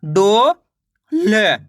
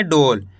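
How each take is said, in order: First: डोल split into long do, pause, then la; very slow डोल, each letter on its own; sounded out in parts. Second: Said in the usual way. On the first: Shown as a demonstration. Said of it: "इस तरीके से direct". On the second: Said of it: "तो मिलके बन जाएगा डोल".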